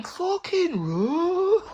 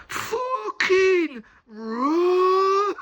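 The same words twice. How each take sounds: First: Drawn-out high shout to flee; urgent yell. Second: Yelled Black Country warning, drawn out high and loud; Black Country shout. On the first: Mate shouting at him to run, high drawn-out yell. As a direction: stretch it out, high and loud, a panicked warning. Mate yelling warning retold. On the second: Mate yelling to flee, in a Black Country accent. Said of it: "in the fucking strongest black country accent". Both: Retold or imitated.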